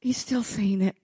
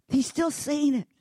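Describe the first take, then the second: First: Said in the usual way. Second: "He's still saying it" lifted higher with weight on "still"; emphatic refrain. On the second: Shown as a demonstration. Preacher driving the point home to the congregation, "still" stressed high. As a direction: hit "still" hard as the refrain's peak. Repeated refrain, builds to peak.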